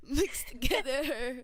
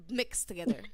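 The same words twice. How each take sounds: First: Slow, laughing and louder; amused drawn-out punchline. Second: Whisper. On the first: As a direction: stretch it out through a laugh. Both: Shown as a demonstration. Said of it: "is this love class or love coaching?".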